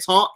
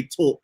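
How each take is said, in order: First: Said in the usual way. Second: "talk" with a rounded New York "aw"; New York vowel in "talk"; New York pronunciation. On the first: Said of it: "when he said". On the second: Shown as a demonstration. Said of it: "he didn't say".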